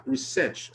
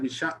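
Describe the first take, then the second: First: Said in the usual way. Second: "research" fumbled, its ending slurred to "sh"; slip of the tongue. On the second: Real, not acted. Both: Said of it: "sorry, research has shown".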